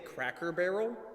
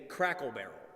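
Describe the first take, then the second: First: Both words are said clearly and separately. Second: The two words are blended, sounding like crackle. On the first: The speaker calls it right. "I can't say Cracker Barrel" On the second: The speaker calls it wrong. "I can only say Crackle Barrel. ... I blend both the words together"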